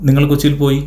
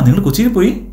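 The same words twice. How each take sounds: First: It is said with a plain statement tune. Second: It is said with a questioning tune. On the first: It reports that the person went to Kochi. "അത് ചോദ്യമാണോ?" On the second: It asks whether the person went to Kochi. "അപ്പോൾ എന്താ അവിടെ ചോദ്യം പോലെ തോന്നില്ല അത്?"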